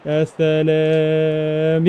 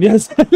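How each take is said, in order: First: A very slow, long, low يا سلام; drawn out. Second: Said in the usual way. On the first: Real, not acted. Gamer savouring a goal on his stream, long drawn-out يا سلام.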